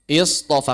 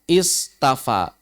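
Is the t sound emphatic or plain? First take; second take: emphatic; plain. First: The t sound is thick and emphatic. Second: The t sound is plain and light. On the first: This is the changed form that is easier to say. "huruf lain yang mirip tak tapi tebal seperti sod" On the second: This is the original form of the word. "ditambah hamzah dan ta"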